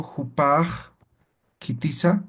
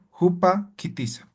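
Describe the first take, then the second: First: Bridge "jupaj" to "kitiza" with the final j sound; "jupaj kitiza" made smoother by sounding the j ending; harmonised with suffix. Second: "Jupa" cut off, then "kitiza" as a separate word; higher-pitched "Jupa kitiza" with a cut in the middle; break between words. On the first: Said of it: "ah, ya se ha vuelto de forma armónica". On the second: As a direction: stop briefly after the vowel of "Jupa" before "kitiza". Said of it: "Aquí hay un corte". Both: Shown as a demonstration.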